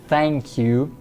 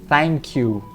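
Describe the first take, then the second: The two takes are said the same way.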